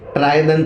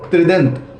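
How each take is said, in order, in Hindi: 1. पहले अक्षर में 'trai' डिफ़्थॉन्ग है। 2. पहले अक्षर में छोटा 'tri' स्वर है।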